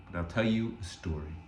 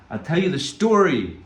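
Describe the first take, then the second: First: Low and soft, drawing them in; hushed lead-in before the story; soft teaser. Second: Higher and louder, proclaimed; ringing storyteller's call; bold announcement. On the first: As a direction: murmur the offer like a secret. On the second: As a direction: announce the story to the whole room. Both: Shown as a demonstration.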